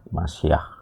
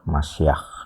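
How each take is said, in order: First: The word ends in a clear, heavy h sound. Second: The word ends in a rough guttural kh sound. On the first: "dibaca sebagai H, tapi biasanya H yang agak jelas, agak beratnya" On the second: "akhiran K H ini eh, dibaca seperti Ak Masyah"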